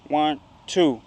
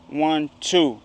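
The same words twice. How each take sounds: No difference in how they are said.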